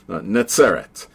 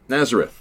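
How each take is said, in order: First: The name is said in its Hebrew form. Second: The name is said in its English form.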